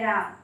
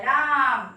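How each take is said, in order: First: Said in the usual way. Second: राम with a very long, loud आ; राम called out loud and long; drawn-out cry. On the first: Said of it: "तो ये नहीं निकलता है". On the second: Shown as a demonstration. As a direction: stretch the vowel in राम right out. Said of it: "राम बहुत लंबा होके निकलता है".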